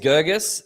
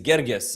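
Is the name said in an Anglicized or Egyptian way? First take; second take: Anglicized; Egyptian. First: The name is given an Anglicized pronunciation. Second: The name is given an Egyptian pronunciation. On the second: "the Egyptian way"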